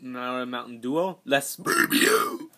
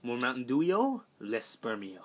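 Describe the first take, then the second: First: Slow, drawn-out mock Spanish accent; fake Spanish accent. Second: Said in the usual way. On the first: Shown as a demonstration. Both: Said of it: "So let's say that in English".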